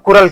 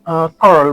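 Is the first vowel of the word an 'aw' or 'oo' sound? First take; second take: oo; aw. First: The first vowel sounds like 'oo'. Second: The first vowel sounds like 'aw'. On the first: The speaker calls it wrong. "और लोग इसको कुरल कहते हैं, पर कुरल नहीं है" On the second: The speaker calls it right. "कॉरल कॉरल बोला जाता है"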